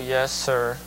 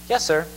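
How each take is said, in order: First: It is said with a bad attitude. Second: It is said with a good attitude.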